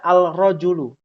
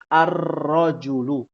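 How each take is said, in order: First: A clear l sound comes before the r. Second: No l; the r sound is doubled instead. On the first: The speaker calls it wrong. "Tidak boleh kita membaca al-rojulu" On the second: The speaker calls it right. "harus menjadi ar-rojulu"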